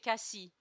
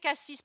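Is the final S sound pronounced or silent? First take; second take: silent; pronounced. First: The final S sound is silent. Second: The final S sound is pronounced. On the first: This is how a local says it. "but you say Cassis" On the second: This is how a non-local says it. "I say Cassis"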